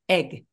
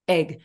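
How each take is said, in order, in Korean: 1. 모음이 짧고 단호하게 발음됩니다. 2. 모음이 짧고 단호하게 발음됩니다.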